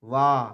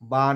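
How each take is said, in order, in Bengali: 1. অক্ষরটি 'w' ধ্বনি দিয়ে শুরু। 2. অক্ষরটি 'b' ধ্বনি দিয়ে শুরু। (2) "বা নয়"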